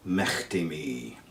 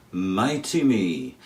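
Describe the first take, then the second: First: "Mechty" with a throaty ch, low and slow; northeast Scots pronunciation. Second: Said in the usual way. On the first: Shown as a demonstration. Teacher showing the northeast Scottish form, rasped ch in "Mechty". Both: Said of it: "where they say".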